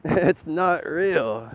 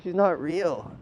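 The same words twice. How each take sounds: First: Slow, laughing 'It's not real' with stress on 'not'; laughing slow repeat. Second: Said in the usual way. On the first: Real, not acted. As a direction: stretch each word out while laughing. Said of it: "laughing repeat, drawn out".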